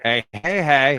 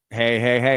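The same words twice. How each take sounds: First: The second hey carries the main emphasis. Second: The second hey carries no special emphasis.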